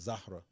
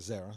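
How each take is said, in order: First: The name is said with its Arabic pronunciation. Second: The name is said with a simplified, anglicized pronunciation. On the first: This is the name's original form. "her real name, like the way you pronounce it, is Zahra. That's Arabic" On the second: This is how her family calls her. "her parents call her Zara"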